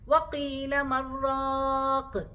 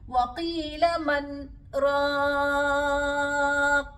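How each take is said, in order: First: The words run together with no break. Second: A brief silent stop follows 'man' without a breath. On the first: It sounds like one single word, changing the meaning. The speaker calls it wrong. "ചേർത്ത് ഓതാനും പാടില്ല" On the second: The two words stay separate in meaning. The speaker calls it right. "മൻ എന്നുള്ളിടത്ത് ഒന്ന് മൗനം പാലിച്ച് ശ്വാസമെടുക്കാതെ"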